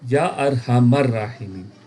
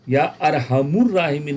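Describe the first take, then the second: First: The vowel after 'arham' is 'a'. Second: The vowel after 'arham' is 'u'. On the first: The speaker calls it right. "बल्कि क्या होगा?" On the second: The speaker calls it wrong. "नहीं"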